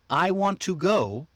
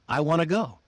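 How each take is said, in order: First: Each word is said separately and fully. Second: The words are linked and reduced together.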